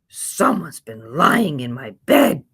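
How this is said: It is said in a big, deep growl.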